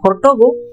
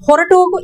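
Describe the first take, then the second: First: The two words are run together into one. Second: The two words are said fully and separately. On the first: "हम बात करने का flow में बोलते हैं" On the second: "इसको ಹೊರಟು ಹೋಗು बोलते हैं"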